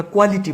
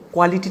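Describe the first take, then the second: First: "কোয়ালিটি" as kualiti, plain k; unaspirated q. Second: "কোয়ালিটি" as khwaliti, with a puff; aspirated q. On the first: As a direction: start "কোয়ালিটি" on a dry ক. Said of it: "আমরা কোয়ালিটি বলি". ("কোয়ালিটি" শুরুতে সাদা ক) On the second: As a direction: breathe out on the first sound of "কোয়ালিটি". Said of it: "না বলে বলবো কোয়ালিটি". ("কোয়ালিটি" শুরুতে খ উচ্চারণ) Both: Shown as a demonstration.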